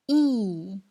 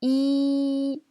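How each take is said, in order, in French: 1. Le ton descend brusquement du haut vers le bas. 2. Le ton reste haut et plat. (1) "C'est le quatrième ton" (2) "C'est le premier ton"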